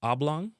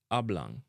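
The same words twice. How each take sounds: First: "Oblong" with an English "ah" start; English pronunciation. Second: "oblong" as "ab-lang"; Jamaican pronunciation. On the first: Teacher giving the English word first, English vowels in "Oblong". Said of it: "would a be". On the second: Teacher giving the Jamaican version, "oblong" as "ab-lang". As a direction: relax the vowels of oblong to "a". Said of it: "in a Jamaican". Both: Shown as a demonstration.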